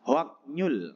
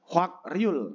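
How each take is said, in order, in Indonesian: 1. Suku kata itu tersambung dengan bunyi k lalu n. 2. Suku kata itu tersambung dengan bunyi k lalu r. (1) "Yang pertama sebenarnya bacanya adalah Hwaknyul"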